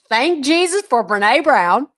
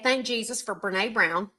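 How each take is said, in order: First: It is said noticeably louder than before. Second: It is said at a normal speaking volume.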